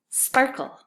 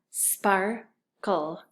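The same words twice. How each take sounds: First: Said in the usual way. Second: "sparkle" broken into spar, cull; split syllables. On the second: Shown as a demonstration. Teacher saying it with the class, syllables apart. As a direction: say "sparkle" in two separate beats. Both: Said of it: "say it with me".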